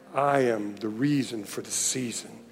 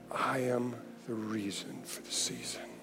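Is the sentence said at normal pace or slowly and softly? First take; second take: normal; slow, soft. First: It is said at normal speed and loudness. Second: It is said slowly and quietly.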